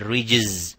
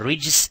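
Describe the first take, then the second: First: The word ends with a Z sound. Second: The word ends with an S sound. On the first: The speaker calls it wrong. "and not a rijz with a zay" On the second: The speaker calls it right. "we should pronounce it a rijz"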